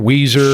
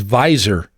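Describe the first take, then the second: First: The name starts with a W sound. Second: The name starts with a V sound. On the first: The speaker calls it wrong. "you talked about Weiser" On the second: The speaker calls it right. "the correct pronunciation is Visor. It's German"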